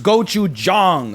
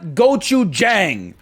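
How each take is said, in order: First: It is said the Korean way, with an uh-like vowel. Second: It is said with an American English pronunciation. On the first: The speaker calls it right. "It's gochujang, ... The A sound, it's more like an uh" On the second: The speaker calls it wrong. "it is not gochujang"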